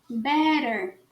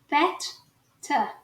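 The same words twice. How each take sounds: First: The middle consonant is a soft R-like flap. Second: The middle consonant is a crisp, explosive T. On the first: "Você troca os dois T's por um R" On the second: "Já o sotaque britânico, ... a gente vai falar os dois T's"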